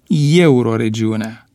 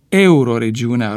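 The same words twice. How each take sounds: First: The word starts with a ye sound. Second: The word starts with a plain e sound. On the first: The speaker calls it wrong. "și nu" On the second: The speaker calls it right. "ar fi trebuit deci să pronunțe"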